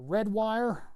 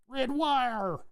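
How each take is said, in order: First: It is said in a normal voice. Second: It is said in a silly put-on voice.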